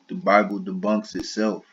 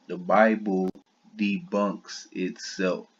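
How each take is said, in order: First: Said in the usual way. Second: "The Bible" then a pause, "debunks itself." said slowly with weight on "debunks"; slow emphatic repeat. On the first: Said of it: "debunks itself (repeated slowly)". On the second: Shown as a demonstration. Repeating his point to viewers, slow and emphatic. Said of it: "The Bible / debunks itself, repeated".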